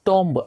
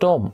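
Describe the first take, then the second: First: The b sound is pronounced. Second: The b sound is not pronounced. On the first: The speaker calls it wrong. "టోంబ్ అని use చేయడం" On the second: The speaker calls it right. "బి అనేది silent అయిపోతుంది"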